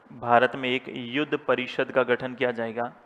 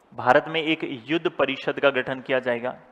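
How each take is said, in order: No difference in how they are said.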